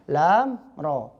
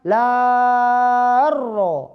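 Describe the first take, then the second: First: The final consonant stays separate from the next letter. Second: The final consonant merges into the next letter. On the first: The speaker calls it right. "tapi lam mati" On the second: The speaker calls it wrong. "bukan la ro, bukan"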